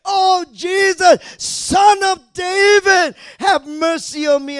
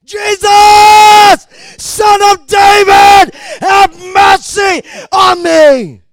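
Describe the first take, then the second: First: High, slow, drawn-out shout; shouted plea. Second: All-out, high, long-held cry; even louder shout. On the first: Blind man calling to Jesus for mercy, shouted plea. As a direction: cry out loudly over a crowd. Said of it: "and he shouted". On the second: Blind man screaming for Jesus to hear, even louder shout. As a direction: bellow each phrase as loud as possible. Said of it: "he shouted even louder". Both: Acted.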